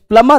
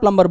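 First: The b sound is not pronounced. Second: The b sound is pronounced. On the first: The speaker calls it right. "प्लम्बर जो है उसमें बी silent है" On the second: The speaker calls it wrong. "हम प्लम्बर प्लम्बर बोल रहे हैं"

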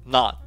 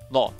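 First: The vowel is an open, unrounded ah sound. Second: The vowel is a short, rounded o sound. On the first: "まずはアメリカ英語での発音" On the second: "イギリス英語の発音"

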